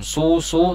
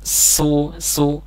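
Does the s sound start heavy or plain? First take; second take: heavy; plain. First: The s sound is heavy from the very start. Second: The s sound starts from a plain mouth position. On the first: The speaker calls it wrong. "tidak boleh ketika menyebutkannya posisi mulut langsung dimunyikan, bukan su-su" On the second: The speaker calls it right. "harus berada di mulai dari posisi normal su-su"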